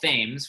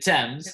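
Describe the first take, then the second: First: The word is said just as it is written. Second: The word is said in its usual, established way. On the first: The speaker calls it wrong. "which I like to call Thames, which is incorrect" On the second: The speaker calls it right. "It's actually called"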